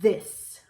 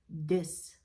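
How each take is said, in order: First: It begins with a TH sound, tongue between teeth. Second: It begins with a D-like or Z-like sound. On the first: The speaker calls it right. "stick your tongue out" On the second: The speaker calls it wrong.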